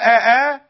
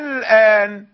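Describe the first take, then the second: First: The second vowel starts with a full glottal stop. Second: The second vowel starts with a softened, eased glottal. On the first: The speaker calls it wrong. "لا تقل أآ" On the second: The speaker calls it right. "بين الهمزة والألف"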